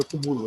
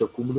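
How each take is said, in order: First: "acumulo" as a-cu-MU-lo; stress on MU. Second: Said in the usual way. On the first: Shown as a demonstration. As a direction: move the stress onto MU in "acumulo". ("acumulo" com a tônica no MU) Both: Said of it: "Existe acúmulo e acumulo".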